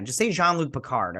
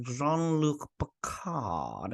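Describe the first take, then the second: First: "Jean-Luc Picard" said quickly and plainly; plain pronunciation. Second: Jean-Luc Picard drawn out very slowly, syllable by syllable; mocking her pronunciation. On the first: Shown as a demonstration. Correcting the show: "Jean-Luc Picard" said plainly. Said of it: "why are you guys saying it like that". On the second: Mocking how the villain says "Jean-Luc Picard", slowly. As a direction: stretch out "Jean-Luc Picard" with a rising tune. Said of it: "I hate how she says Jean-Luc Picard".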